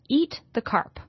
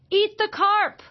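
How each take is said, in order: First: It is said plainly, without excitement. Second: It is said loudly, with excitement.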